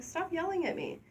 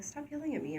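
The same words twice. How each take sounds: First: Very high-pitched retort, at normal volume; own mock protest. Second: Partner's mock protest. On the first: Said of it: "or I'll be like". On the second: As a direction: imitate a partner protesting, pitched up. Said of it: "my partner will be like".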